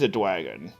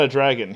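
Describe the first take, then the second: First: The word is said with a w sound. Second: The word is said with a normal r sound. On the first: "There's no R there. It's a W" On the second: "he's not a dragon"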